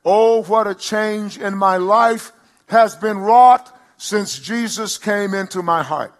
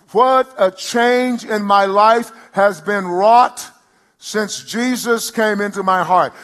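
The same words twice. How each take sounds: First: Slow, loud, lifted testimony; declaimed hymn line. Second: Slower, loud, high testimony; declaimed hymn line. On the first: Pastor declaring the hymn as testimony, slow and loud. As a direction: draw out each word like a hymn. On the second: Pastor repeating the hymn line for the church, slower and loud. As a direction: stretch it even wider. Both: Acted.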